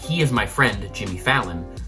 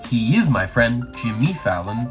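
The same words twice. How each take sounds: First: The emphasis falls in the usual natural places. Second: The emphasis falls in odd, unnatural places. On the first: The speaker calls it right. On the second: The speaker calls it wrong.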